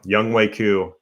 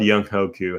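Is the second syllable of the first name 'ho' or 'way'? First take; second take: way; ho. First: The second syllable sounds like 'way'. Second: The second syllable sounds like 'ho'. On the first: The name is said the way its owner says it. The speaker calls it right. "I know it's pronounced Young Wei Koo" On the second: The name is read the way it is spelled. The speaker calls it wrong. "when it's spelled Young Ho Koo, how can we not say it like that?"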